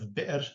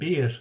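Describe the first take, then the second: First: A glottal stop is heard after the vowel. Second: No glottal stop is heard after the vowel. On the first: This is the form with the hamza. "instead of bi'r" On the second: This is the Hijazi form without the hamza. "they said bir"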